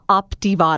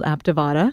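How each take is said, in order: First: The first vowel sounds like the 'o' in cot. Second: The first vowel sounds like the 'a' in cat. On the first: The speaker calls it right. "Creighton says uh" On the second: The speaker calls it wrong. "I don't say it correctly, though"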